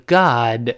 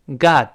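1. 慢读时，末尾的 d 清楚地爆破。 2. 读快一些时，末尾的 d 保持住，不爆破。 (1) "慢慢读是God" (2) "读快一些，跟我念God"

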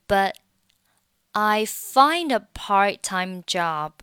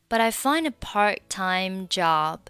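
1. 'but' 里的 t 不发音。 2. 'but' 里的 t 读起来像 d。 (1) "你还可以选择末尾的t 不发音" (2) "这个t 会被浊化成类似于的发音所以你听起来会有一点点像die 的音"

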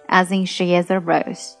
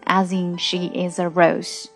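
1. 这句是正常语速读的。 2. 这句是放慢了读的。

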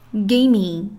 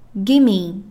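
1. 这两个词连成了一个短词。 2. 这两个词连成了一个短词。

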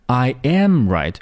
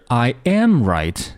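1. 中间的单词重音最强。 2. 中间的单词重音最强。

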